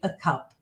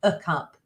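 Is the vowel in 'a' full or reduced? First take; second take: reduced; reduced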